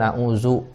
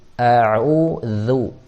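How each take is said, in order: First: The last syllable starts with a buzzing z sound. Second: The last syllable starts with a soft dh sound. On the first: The speaker calls it wrong. "bukan a'uzu... nanti jadi zai" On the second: The speaker calls it right. "zu itu tipis... zu ditarik dari bawah"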